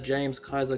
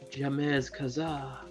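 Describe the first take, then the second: First: The name is pronounced in an ordinary way. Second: The name is pronounced in an affected, fancy way. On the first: "regular names" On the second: "they pronounce them ultra fancy"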